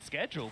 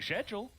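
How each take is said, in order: First: It is said the American way, with 'sk'. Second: It is said the Australian way, with 'sh'.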